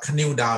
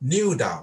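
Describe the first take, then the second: First: The initial k is pronounced. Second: The initial k is silent. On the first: The speaker calls it wrong. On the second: The speaker calls it right.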